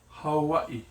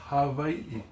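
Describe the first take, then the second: First: The middle consonant sounds like a W. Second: The middle consonant sounds like a V. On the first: "Now the W can be sounded like W" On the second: "But people also call it Hawaii"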